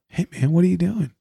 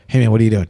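First: It sounds relaxed and content. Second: It sounds tense and irritable.

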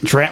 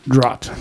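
First: The word is said in a plain American accent. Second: The word is said with an attempted Irish accent.

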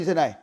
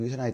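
First: The voice is loud and ringing. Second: The voice is at ordinary volume. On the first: "chúng ta cần phải nói rất là to và vang lên như thế này" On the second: "chúng ta lại dùng cái giọng bình thường như thế này thôi"

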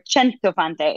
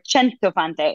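First: The name is said with an Italian pronunciation. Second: The same.

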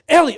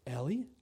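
First: It is said in an exasperated, upset tone. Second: It is said in a calm, controlled tone. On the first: The speaker is reacting in frustration. The speaker calls it wrong. "it wasn't like, ... It wasn't the normal [name]" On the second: The speaker has calmed down before speaking. The speaker calls it right. "And that was my tone, ... It was the I've counted myself off the ledge"

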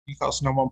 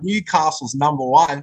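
First: It is said in a relaxed, offhand way. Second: It is said with big, showy enthusiasm. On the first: Everyone already knows it. The speaker calls it right. "real blasé about it... Just like it's just casual" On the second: The claim is treated as a big deal. The speaker calls it wrong. "make big deal of it on the microphone. Don't say"

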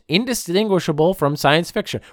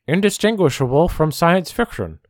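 First: It is said in the speaker's normal voice. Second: It is said in a put-on imitating voice.

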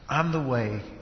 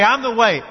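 First: It is said in a warm, gentle, smiling tone. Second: It is said in a pushy, confrontational tone. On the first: The claim is offered to the listener with kindness. "this smile on His face and His arms open" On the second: The claim is pressed on the listener forcefully. "Did He say it like this?"

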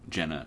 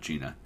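First: The first vowel sounds like in 'bed'. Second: The first vowel sounds like in 'see'. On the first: The speaker calls it right. "think Jenna and not Gina" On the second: The speaker calls it wrong. "we've been pronouncing it wrong"

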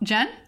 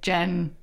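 First: The pitch rises at the end. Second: The pitch falls at the end. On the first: It sounds like she is unsure of her own name. The speaker calls it wrong. "I always say it with, like, an upwards inflection" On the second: She states her name with confidence. The speaker calls it right. "the next time I tried it, and I was like"

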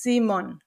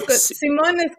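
First: The stress is on the first syllable. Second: The stress is on the second syllable. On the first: This is the German way of saying the name. "in German it's on the I. It's Simon" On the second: This is the Spanish way of saying the name. "it's like in Spain, it's they put the intonation at the O"

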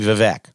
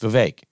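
First: The second syllable does not rhyme with cake. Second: The second syllable rhymes with cake. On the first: The speaker calls it wrong. "Donna Brazile calls Vivek Ramaswamy Vivek" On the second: The speaker calls it right. "It rhymes with cake. It's Vivek"

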